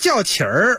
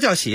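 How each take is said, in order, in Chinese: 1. 这个词的结尾有儿化音。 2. 这个词的结尾没有儿化音。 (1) "那叫叫起儿。" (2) "什么叫叫起啊？"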